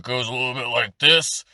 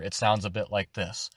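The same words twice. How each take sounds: First: Pushed orc voice. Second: Said in the usual way. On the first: Shown as a demonstration. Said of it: "it goes a little bit like this".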